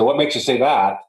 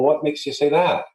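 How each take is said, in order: First: The question sounds blunt and confrontational. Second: The question sounds puzzled and curious. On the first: The listener may feel challenged. The speaker calls it wrong. "That wouldn't come off too good" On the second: The listener is invited to explain more. The speaker calls it right. "you do that confused look and go"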